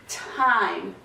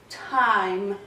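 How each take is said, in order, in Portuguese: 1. A palavra termina no som do m. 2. A palavra termina no som do m.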